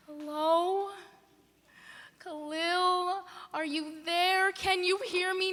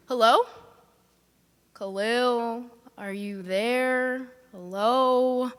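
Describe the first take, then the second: First: A soft falling Hello? with little hope left; hushed call. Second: Calling out. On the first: Calling her uncle again on a dead line, soft and fearful. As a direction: barely ask Hello? into the silence. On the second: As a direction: shout Hello? up, hoping someone answers. Calling into a silent phone. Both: Acted.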